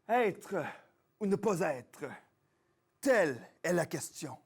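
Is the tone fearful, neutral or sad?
neutral. It is said in a plain, neutral tone.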